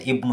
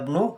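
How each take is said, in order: First: The opening vowel of the word is clearly sounded. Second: The opening vowel is dropped, linking to the previous word. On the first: The speaker calls it wrong. "tidak boleh dibaca ibnu ya" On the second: The speaker calls it right. "Harus dibaca Hada ibnu Hamidin"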